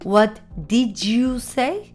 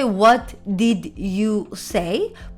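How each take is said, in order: First: The words run together quickly and linked. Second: Each word is said separately and fully. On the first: The speaker calls it right. "I combine and I quickly say" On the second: The speaker calls it wrong. "I don't say what did you say"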